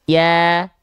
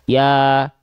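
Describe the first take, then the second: First: It is said with lips spread in a smile. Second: It is said with the mouth simply open. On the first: "Kalau kita lafalkan sambil seolah tersenyum" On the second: "kalau kita hanya buka mulut saja, maka pelafalannya seperti ini"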